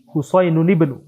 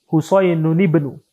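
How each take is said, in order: Both takes have the same delivery.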